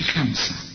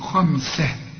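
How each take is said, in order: First: The kha sound is light and thin. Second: The kha sound is heavy and full. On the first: The speaker calls it wrong. "ما تقولش خمسة" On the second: The speaker calls it right. "كل خاء في القرآن ما دام مفتوحة خاء فهنقول خمسة"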